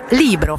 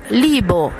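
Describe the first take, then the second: First: The r after the b is pronounced. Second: The r after the b is left out.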